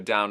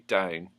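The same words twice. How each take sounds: First: The vowel sounds like 'ow'. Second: The vowel sounds closer to 'oo'.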